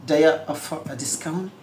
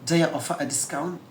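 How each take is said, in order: First: "Do you" blends into "dya", "a" reduced. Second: The same.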